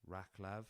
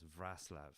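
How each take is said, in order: First: Raclav with a hard K, "RACK-lav"; misread from spelling. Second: Wrocław as "VRAS-lav"; right Polish pronunciation. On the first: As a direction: say Raclav as written, R start and K middle. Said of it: "'cause it's spelt". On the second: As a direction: say Wrocław with VR start and S middle, no K. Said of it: "I think that's the right pronunciation". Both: Shown as a demonstration.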